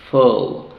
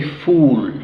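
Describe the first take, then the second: First: Full with a short uh; right short vowel. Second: Full with a long rounded u; wrong oo vowel. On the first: Teacher modelling the correct full. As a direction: keep full short and open. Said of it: "no decimos U, sino". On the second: Teacher showing the wrong vowel in full. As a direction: stretch the u in full. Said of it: "so we don't say full". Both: Shown as a demonstration.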